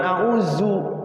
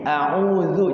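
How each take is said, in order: First: The middle consonant is a plain z sound. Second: The middle consonant is made with the tongue tip. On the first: The speaker calls it wrong. "jangan a'udzu ya. A'udzu jadinya zai" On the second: The speaker calls it right. "ketemu ujung lidah za zu zi"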